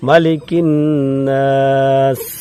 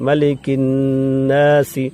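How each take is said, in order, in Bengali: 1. শব্দটি s-এর উপরেই শেষ হয়, কোনো স্বরবর্ণ নেই। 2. শেষ s-এর পরে একটি ছোট i আছে। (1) "এই জেরটাকে সাকিন দিয়ে পড়তে হবে।" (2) "এই সিনের জের আছে"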